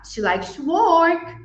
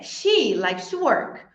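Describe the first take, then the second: First: The word work carries the main stress. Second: The word she carries the main stress. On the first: Working is surprisingly what she enjoys. "she doesn't know that what vacation is" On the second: It is her, not someone else, who likes to work. "I thought it was who who likes to work"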